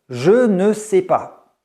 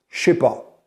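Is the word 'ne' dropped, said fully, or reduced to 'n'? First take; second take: full; dropped. First: The word ne is pronounced fully and clearly. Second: The word ne is left out completely. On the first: The speech is very formal. "on va clairement prononcer ce ne" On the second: The speech is very informal. "dans un français très informel, dans le français de la rue, on dira plutôt"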